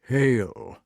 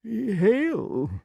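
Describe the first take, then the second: First: Solemn, mysterious salutation. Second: High, uncertain echo of a greeting; nervous king's high-pitched salutation; anxious to impress. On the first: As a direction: intone it as a cryptic magician. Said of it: "in his most mysterious manner". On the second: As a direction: return it high, eager to please. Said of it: "anxious to make a good impression". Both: A narrator's reading.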